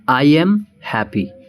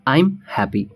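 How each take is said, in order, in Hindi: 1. 'I am' दो पूरे शब्दों की तरह बोला जाता है। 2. 'I am' एक ही सिलेबल में छोटा होकर बोला जाता है। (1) "तो पहला क्या है" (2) "कॉन्ट्रैक्शन में चलेंगे तो हम बोलेंगे"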